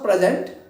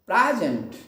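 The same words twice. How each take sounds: First: The stress is on the second syllable. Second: The stress is on the first syllable. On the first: The speaker calls it wrong. "not present" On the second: The speaker calls it right. "This is present"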